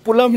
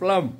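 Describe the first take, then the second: First: An extra vowel separates the p and l. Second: The p and l are joined without a vowel. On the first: The speaker calls it wrong. "पुलम नहीं रे" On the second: The speaker calls it right. "प्लम pronunciation सुध लेना"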